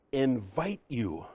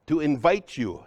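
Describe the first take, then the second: First: Slow, weighty "Invite you." with the weight on "Invite"; stress on invite. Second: Said in the usual way. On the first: Shown as a demonstration. Speaker to workshop audience, repeating the key word slowly. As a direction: lean into "Invite" and let "you" fall away slowly. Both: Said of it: "You hear that word?".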